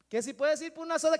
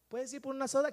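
First: Louder and faster, repeating over the noise; raised repeat. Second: Said in the usual way. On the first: Acted. Repeating the question over the stadium crowd, raised. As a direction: say it again so they can hear.

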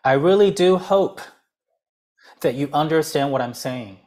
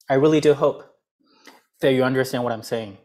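First: "really" stressed, pause after "hope"; four plus seven phrasing. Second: "do" stressed, fast second half; quick phrasing demo. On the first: Teacher shows the pause in a long sentence. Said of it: "停一次". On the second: Teacher repeats the split sentence quickly. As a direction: rattle off the seven-word half. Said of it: "是不是四跟七". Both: Shown as a demonstration.

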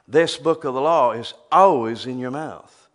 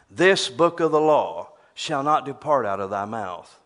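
First: "always" punched louder; stress on always. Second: "This" leaned on, scripture read out; stress on this. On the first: Preacher paraphrasing the verse, punching "always". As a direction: hit the word "always" hard. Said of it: "Speak God's word all the time". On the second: Preacher quoting scripture with weight on "This". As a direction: read "This book of the law" with weight on "This". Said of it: "Now, that's King James". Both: Shown as a demonstration.

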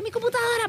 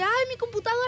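First: High, out-of-breath gasp of words; breathless cry. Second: High, winded plea; breathless cry. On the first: Panting to the bus driver after the chase, high and out of breath. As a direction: sound winded after sprinting. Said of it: "así toda así ahogada, así sin aire". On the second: Retelling her plea to the driver, high and winded. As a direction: gasp it out after running. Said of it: "así toda así ahogada". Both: Retold or imitated.

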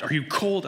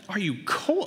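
First: Imitating mom's anxious, raised-pitch question; worried mother calling. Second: High-pitched mocking repeat; incredulous echo. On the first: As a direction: ask it as an anxious mother would. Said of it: "she's yelling through the door". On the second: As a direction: throw the question back in disbelief. Dad mocking wife's question.

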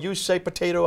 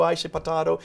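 First: "potato" said po-TAY-to, higher pitched. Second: "potato" said po-TAH-to, higher pitched. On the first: Host quoting the old saying to shrug off a difference, "potato" as po-TAY-to. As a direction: say "potato" with a long AY in the middle. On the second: Host quoting the old saying to shrug off a difference, "potato" as po-TAH-to. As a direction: say "potato" with a broad AH in the middle. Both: Acted. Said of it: "So they might say".

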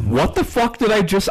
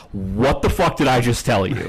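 First: Pitched way up in disbelief, mock outrage; retold exasperation, voice jumping high; exasperated outburst. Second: Said in the usual way. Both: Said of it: "I think I literally just said".

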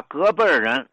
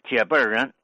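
First: Said in the usual way. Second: 借辈儿人 opening on "jie" instead of ge; old Tianjin pronunciation. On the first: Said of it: "把隔辈儿人读成借辈儿人". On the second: Shown as a demonstration. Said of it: "比如老天津呢".

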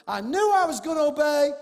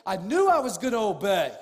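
First: Emphatic. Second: Said in the usual way. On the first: Real, not acted. Repeat raised for emphasis.

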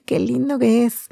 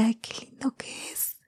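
First: Said in the usual way. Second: Whispered, swooning Ay, qué lindo que es; whispering adoringly about her boyfriend; dreamy whisper. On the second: Retold or imitated. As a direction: sigh it out in a lovestruck whisper. Retold swooning over boyfriend.

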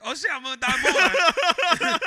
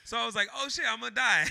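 First: High, loud, drawn-out mock panic; hammed-up terror, much higher and louder. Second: Said in the usual way. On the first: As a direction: wail it like doom is doubling. Escalating panic retold, laughing.

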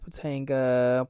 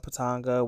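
First: Patanga with a long "ay" in the middle, puh-TAYN-guh; first pronunciation guess. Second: Patanga with an open "ah", puh-TAHN-guh; second pronunciation guess. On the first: Unsure of the restaurant's name, first pronunciation guess. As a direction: say Patanga as puh-TANG-guh, front vowel. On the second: Unsure of the restaurant's name, second pronunciation guess. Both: Shown as a demonstration. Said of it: "however you pronounce it".

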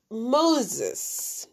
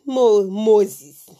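First: Said in the usual way. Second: Moses said MOH-zis, South African way. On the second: Shown as a demonstration. Teaching viewers the local way to say Moses. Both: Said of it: "South Africans say Moses".

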